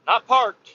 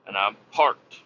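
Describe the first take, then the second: First: "Not parked" punched higher and louder; correcting himself. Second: Said in the usual way. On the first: Real, not acted. Correcting his own wording, stress on "Not". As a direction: hit "Not" hard to fix the word "parked".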